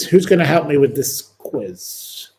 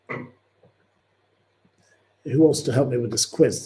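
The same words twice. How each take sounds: First: Said in the usual way. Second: Slow, stretched question to the chat; a slow sing-song appeal for help; drawn-out call. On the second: Acted. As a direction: draw each word out slowly.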